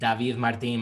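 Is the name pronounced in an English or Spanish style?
Spanish. The name is pronounced the Spanish way. This is the original pronunciation. "like the original is"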